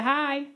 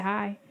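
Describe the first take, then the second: First: Softly eager little greeting; imitating a sweet, hopeful suitor. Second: Said in the usual way. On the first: Man running up to greet a woman, sweetly. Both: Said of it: "so sweet".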